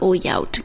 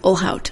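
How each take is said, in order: First: The lh is said as an ly sound. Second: The lh is said as a plain l. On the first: The speaker calls it wrong. "my brain is trying to learn Portuguese" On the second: The speaker calls it right. "It's Olhout"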